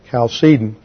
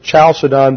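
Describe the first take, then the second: First: The word begins with a hard k sound. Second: The word begins with a ch sound. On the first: The speaker calls it right. "it was pronounced like a hard K in Greek. So the proper pronunciation is" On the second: The speaker calls it wrong. "Some people pronounce it Chalcedon because in the transliteration from the Greek"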